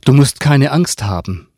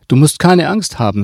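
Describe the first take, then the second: First: Reassurance with a hollow smile, pitched up; higher-pitched, insincerely friendly; falsely smiling. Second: Cold, firm reassurance, pitched up and louder; higher, louder and coldly insistent. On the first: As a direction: reassure the child without really meaning it. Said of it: "sagte die Frau lächelnd, ohne dabei zu lächeln". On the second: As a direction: repeat it firmly, with the smile gone. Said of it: "Ihr Gesicht passte nun zu der kalten Stimme". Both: A narrator's reading.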